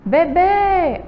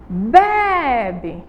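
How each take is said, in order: First: The stress is on the last syllable. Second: The stress is on the first syllable. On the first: It names a baby. "A última sílaba aí é a mais forte" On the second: It means someone drinks. "a gente sabe que é a primeira"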